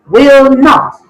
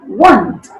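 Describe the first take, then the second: First: Both words are said separately in full. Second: The two words are joined into one syllable. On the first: "Uncontracted form"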